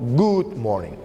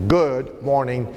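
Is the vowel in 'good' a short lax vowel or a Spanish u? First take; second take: Spanish u; short lax. First: The vowel in good is a full Spanish u. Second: The vowel in good is short, between u and o. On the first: The speaker calls it wrong. "y no good morning" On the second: The speaker calls it right. "La expresión correcta sería entonces good morning"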